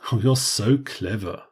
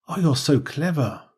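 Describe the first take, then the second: First: The tone is mocking and sarcastic. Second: The tone is sincere and warmly admiring. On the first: The speaker means the opposite of the words. "But if it's a sarcastic" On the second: The speaker truly thinks the person is clever. "if this was a genuine statement"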